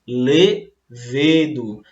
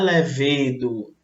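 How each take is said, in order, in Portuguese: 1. A tônica está na primeira sílaba. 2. A tônica está na segunda sílaba. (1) "é mais forte, ó, a antepenúltima sílaba" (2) "Muita gente fala levedo e não é levedo"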